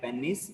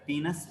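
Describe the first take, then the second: First: It is said in the speaker's usual local pronunciation. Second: It is said in a Western-style pronunciation. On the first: This is how people around the speaker normally say it. "regularly we call it like penis" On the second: This is how it is said in Western dialects and movies. "Western dialects, they call it as like penis"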